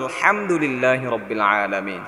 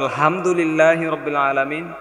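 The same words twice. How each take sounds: First: The h sound is heavy, pressed in the throat. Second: The h sound is light and breathy. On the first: All praise is for God. The speaker calls it right. "সমস্ত প্রশংসা একমাত্র আল্লাহর জন্য।" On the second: All dispraise is for God. The speaker calls it wrong. "অর্থ দাঁড়াবে সমস্ত অপ্রশংসা"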